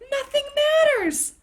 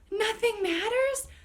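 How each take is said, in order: First: It is said in an excited, upbeat tone. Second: It is said in a gloomy, scared tone.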